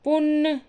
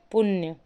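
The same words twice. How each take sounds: First: पुण्य with plain n, pitched high; high "punn" for पुण्य; wrong form. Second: पुण्य with a "ya" glide, falling; correct form. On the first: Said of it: "ये वाला पुण्य नहीं होता है". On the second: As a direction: say पुण्य as "puṇya". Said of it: "ये अड़ा वाला ना आता है". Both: Shown as a demonstration.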